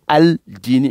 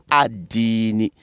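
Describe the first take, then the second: First: "Al-Dini" with the L sounded and held; "Al-Dini" as al-diini, L clearly heard; wrongly pronounced L. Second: "Ad-Dini" with the L silent, long i; "Ad-Dini" as ad-diini, holding the first i; assimilated sun letter. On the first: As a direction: say "Al-Dini", voicing the article's L. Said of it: "On dit pas Al-Dini". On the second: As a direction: say "Ad-Dini", doubling the d, no L. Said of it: "mais on dit Ad-Dini". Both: Shown as a demonstration.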